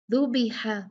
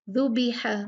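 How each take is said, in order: Both takes have the same delivery.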